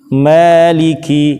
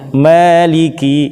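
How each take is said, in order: The two takes are said the same way.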